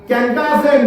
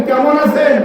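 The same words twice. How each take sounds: The two takes are said the same way.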